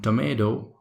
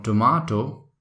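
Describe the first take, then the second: First: Tomato said American, "to-MAY-do"; American accent. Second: Tomato said British, "to-MAH-to"; British tomato with ah vowel and clear T; British accent. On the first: Trainer sets American take against British, American accent. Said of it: "accent is called tomato". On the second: Trainer sets British take against American, British accent. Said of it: "called tomato in British accent". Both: Shown as a demonstration.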